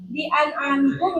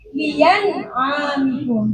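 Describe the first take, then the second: First: The hamzah is a clear glottal stop. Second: The hamzah is replaced by a y sound. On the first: "Yang pertama tahqiq" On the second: "Jadi hamzahnya yang asalnya a menjadi ya"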